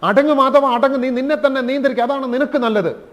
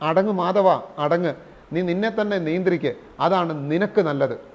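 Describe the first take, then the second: First: It is said even more forcefully. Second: It is said a little firmly.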